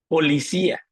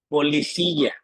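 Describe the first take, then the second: First: The final syllable is pronounced plainly. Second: The final syllable is palatalized.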